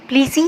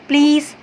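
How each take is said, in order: First: An extra vowel is sounded at the end. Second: The word ends with no extra vowel. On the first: The speaker calls it wrong. "ई को हम completely ... नहीं पढ़ते" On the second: The speaker calls it right. "सिर्फ simple इसको ऐसे पढ़ते हैं"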